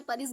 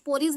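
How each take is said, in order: First: परीज, opening like "pa", not "po"; short "a" variant. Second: पोरीज, opening like "po"; "o" vowel variant. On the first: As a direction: say परीज with a short "a" in the first syllable. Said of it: "परीज भी बोलते हैं". (परीज, पहले अक्षर में छोटा अ) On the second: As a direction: say पोरीज with an "o" in the first syllable. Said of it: "पोरीज भी बोलते हैं". (पोरीज, पहले अक्षर में ओ की मात्रा) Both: Shown as a demonstration.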